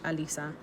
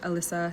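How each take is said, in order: First: The name is said with a Spanish pronunciation. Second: The name is said with an English pronunciation. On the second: "In English"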